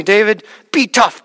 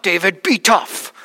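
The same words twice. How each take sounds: First: Put-on firm Russian-accented encouragement to a crying boy; Russian accent, firm and direct; thick Russian accent. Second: Put-on slow Russian-accented repeat of the encouragement; drawn-out Russian accent, steady and insistent; thick Russian accent, slower. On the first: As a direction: say it like a big Russian man telling a kid to toughen up. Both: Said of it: "with that thick Russian accent".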